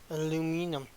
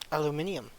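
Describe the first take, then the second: First: Four syllables, ending in a plain 'num' sound. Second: Five syllables, ending in a 'nee-um' sound. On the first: "why do we call it aluminum" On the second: "British English pronounces it differently"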